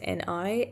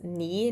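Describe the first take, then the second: First: The term is spelled out as separate letters. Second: The term is said as a single word. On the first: "not as N I" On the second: "I pronounce things phonetically, so I will pronounce Ni as Ni"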